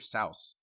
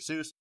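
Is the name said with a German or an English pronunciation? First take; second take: German; English. First: The name is said with a German pronunciation. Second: The name is said with an English pronunciation. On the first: This is how the name's owner said it. "Dr. Seuss actually pronounced his name Dr. Seuss. That is the German pronunciation" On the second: This is how people commonly say it. "we just say Dr. Seuss"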